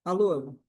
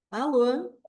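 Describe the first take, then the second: First: Curt phone hello, tight lips, cross face; closed, stern face. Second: Friendly phone hello with a smile on the lips; smiling Alô on the phone; with a light smile. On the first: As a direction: answer like you're annoyed, mouth pinched. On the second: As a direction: answer the phone smiling, pleasant and open. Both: Shown as a demonstration. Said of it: "eu só mudei a expressão dos meus lábios".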